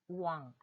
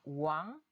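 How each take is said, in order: First: The pitch stays level without a tone. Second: The pitch rises gradually across the syllable.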